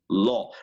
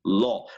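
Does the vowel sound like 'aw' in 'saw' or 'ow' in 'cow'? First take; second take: aw; aw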